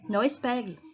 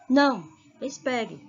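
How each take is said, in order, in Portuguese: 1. As palavras são ditas juntas, sem pausa. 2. Há uma pausa depois da primeira palavra.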